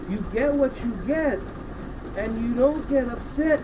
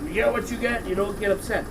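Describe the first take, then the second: First: It is said in a soft, sweet tone. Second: It is said in a quick, snappy tone. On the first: The child is being addressed lovingly. "my dear, my joy, my precious child" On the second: It is a reflexive brush-off. "We don't say it like that. We're like"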